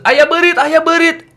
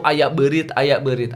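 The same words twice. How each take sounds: First: Loud, high "Ayah berit" calling to dad; alarmed shout. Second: Said in the usual way. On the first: Retold or imitated. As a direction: cry out to dad about a rat. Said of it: "kalau kamu ke Bandung".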